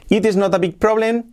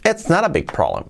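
First: "It is not a big problem" every word separate and high; full careful form. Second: "It's not a big problem" run together with a flapped T; linked natural form. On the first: Teacher contrasting full form for students, each word separate. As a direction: spell out each word unlinked. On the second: Teacher showing students the linked native version. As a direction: glide it into one natural phrase. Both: Shown as a demonstration. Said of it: "lo pasamos a".

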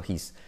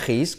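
First: HIS with a light breathed H; soft-H HIS. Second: HIS with a rasped Spanish J, "jis"; harsh J-sound HIS. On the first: Teacher modelling it right, HIS with soft H. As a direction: say HIS lower and softer, H barely aspirated. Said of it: "sino his". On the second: Teacher showing the mistake, HIS with throaty J. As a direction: scrape the H of HIS like jamón. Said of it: "como la J de jamón". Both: Shown as a demonstration.

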